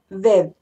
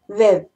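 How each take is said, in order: First: The d sounds are soft, like th. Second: The same.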